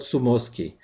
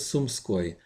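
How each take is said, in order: First: An extra vowel is added after the m. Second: The m is kept before the sk cluster. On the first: The speaker calls it wrong. "or change it somehow" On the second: The speaker calls it right. "my name is Sumskoy"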